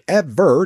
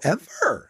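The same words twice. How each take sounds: First: The pitch falls on the word. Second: The pitch rises on the word. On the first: The speaker calls it wrong. "Instead of going ever, like ever down" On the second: The speaker calls it right. "go ever"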